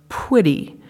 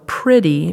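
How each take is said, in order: First: The word starts with a P and W cluster. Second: The word starts with a P and R cluster. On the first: "they produce PW" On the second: "instead of, for example, producing PR"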